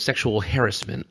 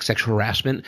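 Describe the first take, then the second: First: "harassment" stressed up front, HAIR-us-ment; "harassment" as the newsman says it, HAIR-us-ment; HARRIS-ment pronunciation. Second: "harassment" stressed on the middle, huh-RASS-ment; "harassment" with RASS punched; har-ASS-ment pronunciation. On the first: Retold or imitated. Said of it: "but the newsman said". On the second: Shown as a demonstration. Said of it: "that's not how you say it".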